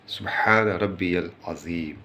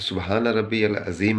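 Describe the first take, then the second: First: Careful recitation, long breathed "हा" in "सुबहान"; fully sounded H. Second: "सुबहान रब्बी अल अज़ीम" with the ह of सुबहान swallowed; dropped H. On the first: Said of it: "हे निकल नहीं पाता है". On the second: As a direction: slur past the ह in "सुबहान". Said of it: "हे हज़फ कर जाते हैं हम लोग". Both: Shown as a demonstration.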